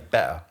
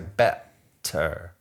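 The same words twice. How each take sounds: First: The t in the middle is dropped or softened. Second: The t in the middle is clearly pronounced. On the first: This is how the speaker usually talks. "I say better" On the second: This is not how the speaker usually talks. "I don't normally say better"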